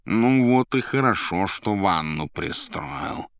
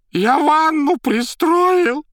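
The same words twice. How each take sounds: First: Drawled mild approval; approving. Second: Very high, loud, slow shriek; terrified shouting. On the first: Azazello answering the panicked informer, slow mock approval. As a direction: draw it out, nodding along smugly. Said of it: "одобрительно сказала Зазелла". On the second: Bloodied informer defending himself, terrified high shriek. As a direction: shriek it out in panic. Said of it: "стуча зубами, кричал окровавленный Магарыч". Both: A narrator's reading.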